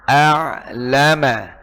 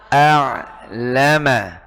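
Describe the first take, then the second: No difference in how they are said.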